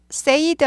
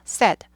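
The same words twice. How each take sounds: First: Said as say-id, with a long glide; said stretched like sayd; wrong said. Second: Said as sed, short e; short open e in said; correct said. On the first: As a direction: say said with the vowel of say. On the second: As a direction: say said to rhyme with bed. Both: Shown as a demonstration. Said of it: "said 아니고 said라 그랬죠".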